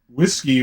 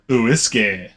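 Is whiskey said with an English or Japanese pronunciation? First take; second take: English; Japanese. First: It is said with an English pronunciation. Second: It is said with a Japanese pronunciation.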